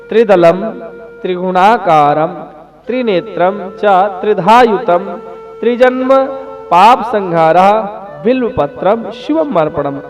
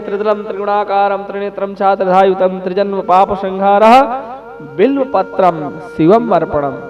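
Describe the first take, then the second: First: It is said slowly and calmly. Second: It is said at a quicker pace.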